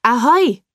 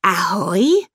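First: A loud hail across the water; loud call. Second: Ahoi? with a rising, wondering tune; puzzled question. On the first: Camillo hails the ship from the shore, calling out loud. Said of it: "ruft Camillo laut". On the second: Bea on deck asks back who called, puzzled rising Ahoi?. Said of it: "fragt Bea Backbord". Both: Acted.

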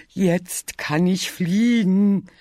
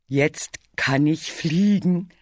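First: Higher, slow triumphant chant; singing, bigger. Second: Sung, slow sing-song boast; half-sung, stretching the words. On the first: Bear is sure he can fly, singing higher. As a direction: sing it out, stretched wide. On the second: Bear shows Bee his feathers, singing happily. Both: A narrator's reading. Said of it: "sang Bär".

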